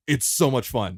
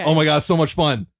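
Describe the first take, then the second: First: Said in the usual way. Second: Loud, gushing burst of enthusiasm; excited. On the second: Real, not acted. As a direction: blurt it out, thrilled. Gushing about the game.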